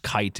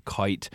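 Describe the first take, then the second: First: Said in the usual way. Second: KITE said with an "oy" vowel, like "koyt"; Vermont long I. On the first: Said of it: "instead of kite". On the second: Shown as a demonstration. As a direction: round the vowel in KITE, old Vermont style. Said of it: "it would be kite".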